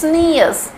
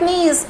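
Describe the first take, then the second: First: Niece said the French way, nee-ess with a soft second vowel; French pronunciation. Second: Said in the usual way. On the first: Shown as a demonstration. Teacher to students, showing the French word, French pronunciation. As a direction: give niece its French sound, two light syllables. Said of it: "it's niece". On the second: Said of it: "just like niece".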